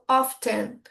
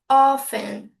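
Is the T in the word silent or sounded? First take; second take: sounded; silent. First: The T sound is clearly pronounced. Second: The T sound is left out. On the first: This is the British way of saying it. "A pronúncia britânica, ... eles leem o T" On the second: This is the American way of saying it. "A pronúncia americana, eles eliminam o T"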